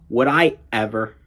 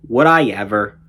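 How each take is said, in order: First: The airflow stops sharply in the throat between words. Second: The words flow together without any break.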